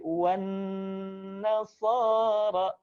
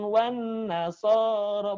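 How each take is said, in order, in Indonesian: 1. Bunyi sengau n ditahan dua ketukan. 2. Bunyi sengau n dipotong pendek. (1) "tapi wan nasara, nya ditahan di rongga hidung, dua ketukan" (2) "bukan wan nasara"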